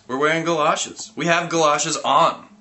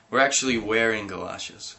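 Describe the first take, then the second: First: Louder, higher insisting; insistent. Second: Said in the usual way. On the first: Acted. Narrator getting testy with the boy, insistent. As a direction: push the point harder.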